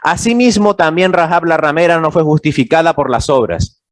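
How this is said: It is said as a flat statement.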